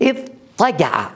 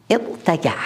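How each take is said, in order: First: اضطجع drawn out slowly with emphatic ṭa; ta turned ṭa. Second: اضطجع with plain t after the dad; original light ta. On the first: Teacher giving students the changed form, slow اضطجع with emphatic ṭa. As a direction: say اضطجع as "iḍ-ṭaga'a", very slow, heavy ṭ. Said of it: "قلنا اض". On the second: Teacher showing the underlying form, اضطجع with light ta. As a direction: say اضطجع as "iḍtaga'a", t left unemphatic. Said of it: "أتيت بالتاء". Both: Shown as a demonstration.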